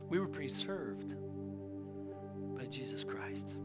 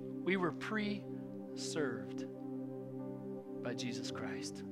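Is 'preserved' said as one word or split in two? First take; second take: one word; split. First: The word is said smoothly as one word. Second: The word is split into pre and served.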